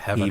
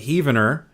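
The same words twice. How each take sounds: First: The first syllable sounds like heaven. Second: The first syllable sounds like heave. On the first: The speaker calls it wrong. "It's not Heavener" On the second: The speaker calls it right. "that's how it's pronounced"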